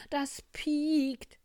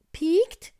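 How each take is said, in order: First: High, loud warning on a falling end; boastful fox warning. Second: Very high, loud, rising question; little bear exclaiming. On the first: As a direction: state it ominously as a show-off, stretching PIEKT. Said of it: "spielte sich der Fuchs auf". (hohe, laute Angeberwarnung) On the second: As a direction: squeal it back as an indignant question. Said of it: "rief der kleine Bär". (schrill hoch gerufene Bärchenfrage) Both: Acted.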